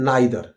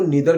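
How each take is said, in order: First: The first vowel sounds like 'eye'. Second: The first vowel sounds like 'ee'. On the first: "इसके बाद में है नाइदर" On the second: "नाइदर को नीदर भी पढ़ते हैं"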